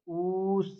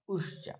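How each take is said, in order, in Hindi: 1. स्वर को दो मात्रा जितना रोका जाता है। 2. स्वर को एक छोटी मात्रा जितना रोका जाता है। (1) "द्विमात्री दो मात्रा का उच्चारण लगेगी" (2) "एक मात्रा जिसके उच्चारण में एक मात्रा का समय लगे उसको ह्रस्व कहेंगे"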